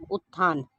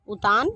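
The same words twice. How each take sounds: First: उत्थान with doubled, aspirated t; correct pronunciation. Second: उतान with a single plain t, "utaan"; slow उतान, no doubled t or aspiration; wrong pronunciation. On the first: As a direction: hold the t, then release "th" in उत्थान. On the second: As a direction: say उतान as u-taan. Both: Shown as a demonstration. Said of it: "अशुद्ध और फिर शुद्ध".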